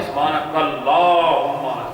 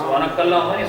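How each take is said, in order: First: "اللہم" with the lam held long, very slow; right way: draw out the lam in "اللہم"; slow "سبحانک اللہم", lam stretched long. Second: "اللہم" with the lam clipped short, said quickly; wrong way: "اللہم" rushed, no held lam; "سبحانک اللہم" with a short, unstretched lam. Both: Shown as a demonstration. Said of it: "لام کو کھینچنا ہے".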